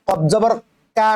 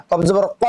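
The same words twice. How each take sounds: First: কা as a plain k with open "aa"; wrong qaf. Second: কফ জবর ক with Arabic qaf; correct qaf. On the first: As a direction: say কা with an ordinary front k. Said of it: "না". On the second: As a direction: say ক far back, like "qo". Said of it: "উচ্চারণটি করে নেবেন". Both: Shown as a demonstration.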